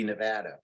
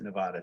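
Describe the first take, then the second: First: Nevada with the a of "cat"; short-a pronunciation. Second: Nevada with the a of "father"; broad-a pronunciation. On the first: Giving the supposed correct form, Nevada as "nuh-VAD-uh". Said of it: "I think it's supposed to be". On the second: Admitting his own habit, Nevada as "nuh-VAH-duh". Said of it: "I think I pronounce it". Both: Shown as a demonstration.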